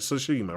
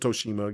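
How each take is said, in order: First: The name begins with a 'tsu' sound. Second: The name begins with a plain 'toe' sound. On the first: The speaker calls it right. "I got to say it right" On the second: The speaker calls it wrong. "I say Ghost of Toshima"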